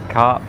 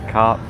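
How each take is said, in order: No difference in how they are said.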